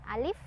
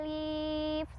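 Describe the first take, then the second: First: The letter name is said short, one beat. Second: The letter name is drawn out long. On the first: The speaker calls it right. "satu ketukan atau pendek ya, pendek dibacanya" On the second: The speaker calls it wrong. "Nggak pernah tuh baca alif, salah"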